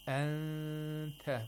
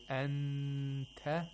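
First: The n is hidden and nasalized before t. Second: The n is fully pronounced with the tongue. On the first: The speaker calls it right. "The ikhfa of the nun sakina was applied very well" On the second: The speaker calls it wrong. "that's not ikhfa, that's incorrect"

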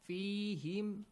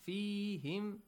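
Both takes have the same delivery.

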